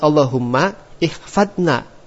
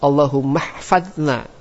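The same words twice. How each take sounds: First: A glottal stop separates Allahumma from ihfadna. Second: The words run together without a glottal stop. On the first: The speaker calls it wrong. "Jangan Allahumma ihfadna. Itu salah" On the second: The speaker calls it right. "itu antum ucap Allahumma ihfadna"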